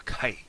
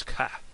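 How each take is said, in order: First: "kai" with a gliding eye vowel; "kai", the vowel sliding toward ee; northern pronunciation. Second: "ka" with an open ah vowel; "ka", no glide on the vowel; southern pronunciation. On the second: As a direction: say "ka" ending on a plain ah. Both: Shown as a demonstration. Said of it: "if you're from the north".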